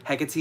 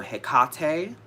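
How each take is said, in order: First: Hecate as HEK-uh-tee, stressed on the first syllable; wrong pronunciation. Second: Hecate as heh-KAH-tay, middle syllable strong; middle-syllable stress. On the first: Witch correcting how her goddess is named, wrong pronunciation. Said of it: "is the wrong way to pronounce her name". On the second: Witch teaching her goddess's name, middle-syllable stress. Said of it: "putting a strong emphasis on the middle syllable". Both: Shown as a demonstration.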